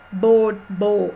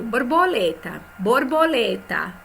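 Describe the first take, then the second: First: "borboleta" chopped syllable by syllable, slow; silabando. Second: "borboleta" said whole and smoothly, no syllable breaks; "borboleta" as one flowing word, the second a bit slower; dito inteiro. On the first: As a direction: split into syllables, BOR-BO-LE-TA. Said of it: "a gente não vai ditar assim". ("borboleta" dita sílaba por sílaba, devagar) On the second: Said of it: "A gente vai digitar assim". ("borboleta" dita inteira, sem separar sílabas) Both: Shown as a demonstration.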